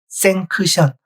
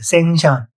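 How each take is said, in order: First: A k sound is heard before the final syllable. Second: No k sound is heard before the final syllable. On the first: "원래 발음기호는 생크션이에요" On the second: "생션이랬어요"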